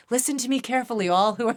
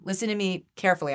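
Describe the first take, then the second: First: Higher, louder, breaking into laughter; playful mock oracle addressing all; mock proclamation. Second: Said in the usual way. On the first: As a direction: grandly address the heavens, then crack up. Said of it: "I keep looking up, like, I'm like".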